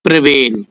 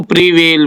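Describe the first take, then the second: First: "प्रिवेल" with a short, weak first vowel, "pruh-VEL"; actual pronunciation. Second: "प्रिवेल" read with a clear "pree" at the start; common misreading. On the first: Teacher gives learners the actual word, correct pronunciation. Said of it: "है actual word प्रिवेल". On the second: Teacher shows how readers would say it, common misreading. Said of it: "पढ़ने वाले इसको प्रिवेल बोलेंगे". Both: Shown as a demonstration.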